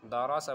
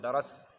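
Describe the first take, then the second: First: دارا سا said as three open syllables, "da-ra-sa"; full pronunciation. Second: درس shortened to "daras", closed on s; the common two-syllable error "daras"; mispronounced درس. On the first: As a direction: keep the last vowel in دارا سا. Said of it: "آپ کو پورا پڑھنا پڑے گا". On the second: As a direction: drop the final vowel of درس. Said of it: "بہت لوگ درس بولتے ہیں". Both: Shown as a demonstration.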